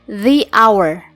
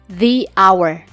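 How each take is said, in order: No difference in how they are said.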